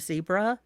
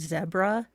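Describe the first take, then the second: First: It is said the non-British way. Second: It is said the way people in England say it. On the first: "instead of" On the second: "in England, I know they say zebra"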